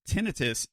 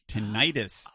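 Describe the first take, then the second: First: The word is said the British English way. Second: The word is said the American English way. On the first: "is how it's pronounced in British English" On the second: "is how it's pronounced in American English"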